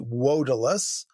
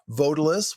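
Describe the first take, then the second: First: The word begins with a w sound. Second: The word begins with a v sound.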